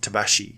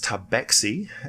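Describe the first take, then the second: First: The middle consonant sounds like 'sh'. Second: The middle consonant sounds like 'ks'. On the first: This is how other regions say the name. "in other regions um, they may call it tabashi" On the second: This is how they say their own name. "they pronounce their name as tabaxi"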